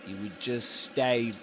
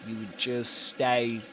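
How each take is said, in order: The two takes are said the same way.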